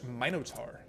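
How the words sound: The word is said with a British accent. "to say it properly British"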